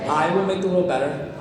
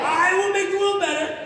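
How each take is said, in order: First: It is said in a plain, even voice. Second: It is said forcefully, with strong conviction.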